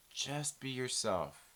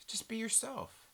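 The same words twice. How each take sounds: First: A quiet, heavy Just be yourself; low slow soft advice. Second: A gentle raised just be yourself; pitched-up soft advice; higher, softer just be yourself. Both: Shown as a demonstration.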